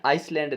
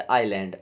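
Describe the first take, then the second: First: आइसलैंड with the s sounded, ice-land; wrong way with s. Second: आइलैंड with no s, eye-land; silent s. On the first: Teacher showing students the wrong way, s sounded. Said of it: "आइसलैंड नहीं बोलते". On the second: Teacher giving students the right way, s silent. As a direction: say आइलैंड, dropping the s, lower. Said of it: "इसमें एस silent होता है ना". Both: Shown as a demonstration.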